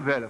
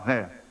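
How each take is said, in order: First: The word is said in a normal voice. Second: The word is said in a nasal voice. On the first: "Não fala nem velha" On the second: "fala velha"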